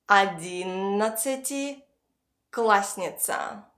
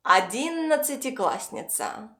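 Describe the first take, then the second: First: Slow Одиннадцатиклассница, pausing before классница; split in two. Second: Said in the usual way. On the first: Shown as a demonstration. Teacher has learners repeat after her, slowly in two parts. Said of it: "split this word into two parts". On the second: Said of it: "pronounce it all together".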